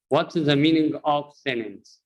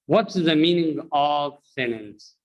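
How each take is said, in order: Both takes have the same delivery.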